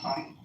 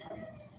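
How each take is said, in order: First: The word ends without a final s sound. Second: The word ends with a clear final s sound. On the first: The speaker calls it right. "the French, they never pronounce that sin. They say Paris" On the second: The speaker calls it wrong. "they don't say Paris"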